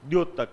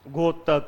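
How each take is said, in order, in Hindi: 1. शब्द 'dy' ध्वनि से शुरू होता है। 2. शब्द 'gh' ध्वनि से शुरू होता है। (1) "ये घोतक नहीं है, ये द्योतक है" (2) "कुछ इसको घोतक बोलते हैं"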